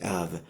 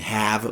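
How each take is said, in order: First: It is reduced, without h and with uh. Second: It is said in full with the h. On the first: "we say have ... losing the at the beginning ... shortening the vowel a to uh" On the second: "Instead of saying have"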